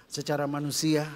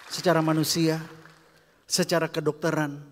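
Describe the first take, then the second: First: Said in the usual way. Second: Louder push on Secara manusia; building emphasis. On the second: Acted. Repeated phrase, built up louder.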